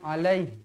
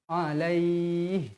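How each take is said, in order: First: The final syllable is cut short. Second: The final syllable is held long. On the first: The speaker calls it wrong. "Jangan alaih" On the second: The speaker calls it right. "Mestilah dibaca panjang"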